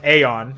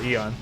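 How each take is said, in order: First: The word starts with an 'ay' sound. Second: The word starts with an 'ee' sound. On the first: The speaker calls it wrong. "it's not pronounced Aeon" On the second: The speaker calls it right. "it is still Eon"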